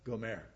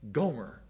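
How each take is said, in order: First: The name is said with a Hebrew pronunciation. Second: The name is said with an English pronunciation. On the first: The name sounds more feminine. The speaker calls it right. "I'm going to pronounce it the Hebrew way. It sounds a lot more feminine" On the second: The name does not sound feminine. The speaker calls it wrong. "Like Gomer Piles"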